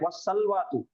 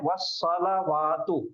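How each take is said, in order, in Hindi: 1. l के बाद कोई स्वर नहीं है। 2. l के बाद a स्वर है। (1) "लाम पे सुकून करके पढ़ते। तो ऐसा नहीं पढ़ना है" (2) "वस्सलावातु ये है"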